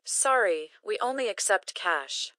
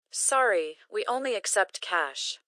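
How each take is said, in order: Both takes have the same delivery.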